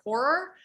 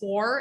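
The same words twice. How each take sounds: First: The word is said with both syllables clearly enunciated. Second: The word is slurred, with its syllables run together. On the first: The speaker calls it right. "instead of horror" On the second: The speaker calls it wrong. "lazy talkers like me and say horror and don't enunciate it"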